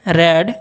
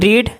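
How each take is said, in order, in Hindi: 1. स्वर छोटा है, 'red' जैसा। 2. स्वर लंबा है, 'reed' जैसा। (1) "इसका उच्चारण जो है सो दूसरा करते हैं" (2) "रीड मतलब होता है पढ़ना"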